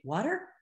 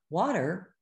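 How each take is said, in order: First: "water" lifted up at the end like a question; rising question tune. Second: Said in the usual way. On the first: Shown as a demonstration. A child echoing "want some water?", "water" rising as a question. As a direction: say "water" with a questioning rise, higher. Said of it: "the reason they say". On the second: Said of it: "instead of".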